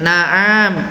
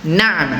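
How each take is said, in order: First: The middle ain sound is drawn out long. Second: The middle ain sound is kept short. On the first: The speaker calls it wrong. "ainnya jangan kayak na'am. itu seolah-olah ainnya panjang" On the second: The speaker calls it right. "Ainnya pendek ya"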